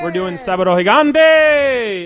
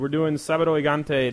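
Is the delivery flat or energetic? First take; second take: energetic; flat. First: It is said in a loud, over-the-top way. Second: It is said in a plain, low-energy way. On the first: "Don't oversell it" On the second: "you said it wrong"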